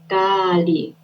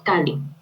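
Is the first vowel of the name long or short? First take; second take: long; short. First: The first vowel is held long. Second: The first vowel is short. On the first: It names the goddess. The speaker calls it right. "ella se debería llamar Kali" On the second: It names a demon. The speaker calls it wrong. "cuando la pronuncias nada más con una A"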